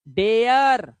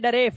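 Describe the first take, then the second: First: The vowel glides from eh to uh. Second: The vowel is a short plain e. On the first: The speaker calls it right. "एया" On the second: The speaker calls it wrong. "मत कर देना"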